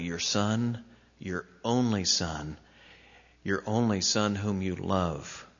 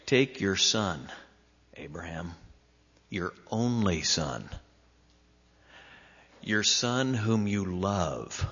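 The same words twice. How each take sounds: First: Each word laid down gently; tender, deliberate repetition; careful and slow. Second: Slowed, gentle and careful. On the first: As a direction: say it carefully, letting only son sink in. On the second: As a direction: linger on only son. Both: Retold or imitated. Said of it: "He said it very carefully".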